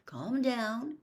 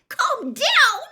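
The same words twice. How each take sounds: First: Said in the usual way. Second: High, loud incredulous echo; feverish echo. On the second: A narrator's reading. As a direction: throw the words back in disbelief. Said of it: "she said feverishly".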